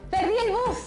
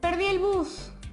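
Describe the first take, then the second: First: It is said with happiness. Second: It is said with sadness.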